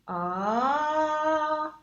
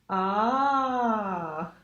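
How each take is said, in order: First: The pitch glides upward from low to high. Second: The pitch glides downward from high to low. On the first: "low and then work our way up to high" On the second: "from the really high where we just ended and go back down to low"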